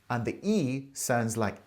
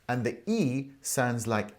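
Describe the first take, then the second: The two takes are said the same way.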